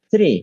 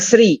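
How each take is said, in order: First: It begins with a soft th between the teeth. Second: It begins with a plain s sound. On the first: The speaker calls it right. "jadi suaranya antara dua gigi tapi dengan desis lembut" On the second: The speaker calls it wrong. "jangan sri"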